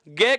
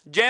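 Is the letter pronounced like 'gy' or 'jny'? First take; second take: gy; jny. First: The letter is pronounced with a hard g sound. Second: The letter is pronounced with a j and nasal sound. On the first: This is the common everyday pronunciation. The speaker calls it wrong. "इसका उच्चारण हम भ्रमवश क्या करते हैं, गय कर देते हैं" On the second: This is the linguistically correct pronunciation. The speaker calls it right. "वास्तविक जो उच्चारण भाषा विज्ञान की दृष्टि से ... जय होता है"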